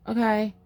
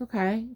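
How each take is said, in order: First: Heavy sigh, then okay; put-upon sighed okay; imitated grudging okay. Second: Easy higher okay, rising; ready, unbothered okay; agreeable okay. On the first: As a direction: mimic a reluctant sigh before agreeing. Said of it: "Like that". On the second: Retold or imitated. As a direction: say okay as if happy to oblige. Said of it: "I would be like".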